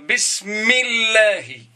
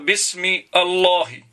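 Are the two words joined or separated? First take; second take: joined; separated. First: The two words run together as one flow. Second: The two words are said apart, not linked. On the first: The speaker calls it right. "Je vais dire" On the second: The speaker calls it wrong. "Je ne peux pas dire"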